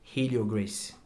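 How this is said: It is said with an English pronunciation.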